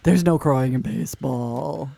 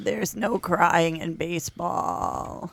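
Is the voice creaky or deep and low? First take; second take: deep; creaky. First: It is said in a deep, low voice. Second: It is said with a creaky vocal fry.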